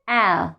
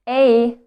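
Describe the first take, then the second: First: The vowel is short, as in cat. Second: The vowel sounds like its letter name. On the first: "the short version is A, like cat or cap or nap" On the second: "The long version is A as its alphabet name"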